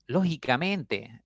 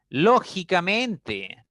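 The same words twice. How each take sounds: First: "Lógicamente" slowly, with a milder lift on LÓ; slow, moderate first-syllable stress in "Lógicamente"; stress demonstration. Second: "Lógicamente" slow, with a high, loud LÓ; exaggerated first-syllable stress in "Lógicamente"; stress demonstration. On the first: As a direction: gently stress LÓ in "Lógicamente", drawing it out. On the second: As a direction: hit LÓ hard in "Lógicamente" and stretch it out. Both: Shown as a demonstration. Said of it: "a veces pronunciamos esa palabra así".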